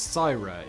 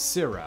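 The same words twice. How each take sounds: First: It is said with a British pronunciation. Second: It is said with an American pronunciation. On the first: "In England, it's" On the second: "In the U S, it's"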